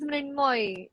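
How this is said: Said with 'Mrin' and ending in 'moy'. "So in Bengali, it becomes Mrinmoy"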